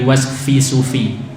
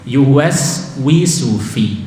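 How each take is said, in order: First: The sound after yuwas is an f. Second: The sound after yuwas is a w. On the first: The speaker calls it wrong. "bukan yuwas fi sufi" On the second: The speaker calls it right. "jangan sampai giginya nyentuh bibir bawah"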